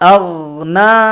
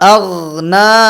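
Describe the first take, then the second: No difference in how they are said.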